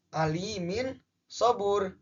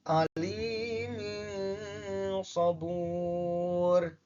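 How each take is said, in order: First: The n sound is pronounced clearly. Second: The n sound is blurred and hidden.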